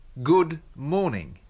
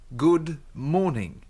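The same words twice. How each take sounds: Both takes have the same delivery.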